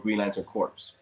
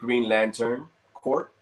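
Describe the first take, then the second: First: The word ends with an audible S sound. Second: The word ends without an S sound. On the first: The speaker calls it wrong. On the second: The speaker calls it right.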